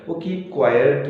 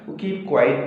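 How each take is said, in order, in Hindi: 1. आखिरी शब्द 'quiet' जैसा सुनाई देता है। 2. आखिरी शब्द 'quite' जैसा सुनाई देता है। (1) "होता है" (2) "नहीं होता है"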